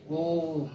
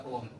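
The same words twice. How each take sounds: First: ओम drawn out long and slow, the vowel held; prolonged pluta vowel. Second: Said in the usual way. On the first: Shown as a demonstration. Teacher shows students a long pluta vowel, drawn out. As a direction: stretch the ओ in ओम to triple length. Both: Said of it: "तो इसमें समय बहुत ज़्यादा लग रहा है".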